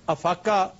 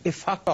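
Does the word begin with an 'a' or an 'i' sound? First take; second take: a; i. First: The word begins with an 'a' vowel. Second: The word begins with an 'i' vowel. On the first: The speaker calls it wrong. "अफाका मिस pronunciation है" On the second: The speaker calls it right. "इफाका होता है। इसके नीचे जेर"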